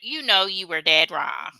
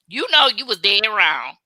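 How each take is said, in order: First: It is said flat, with a straight face. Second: It is said sassy, with animated attitude.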